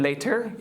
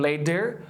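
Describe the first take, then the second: First: LATER with a fully sounded T; hard T. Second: LATER with a full heavy D for T; hard D. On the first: Teacher's first wrong example, LATER with hard T. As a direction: keep a true T inside LATER. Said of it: "نمیگیم". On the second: Teacher's second wrong example, LATER with hard D. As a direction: put a solid D inside LATER. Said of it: "یا نمیگیم". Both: Shown as a demonstration.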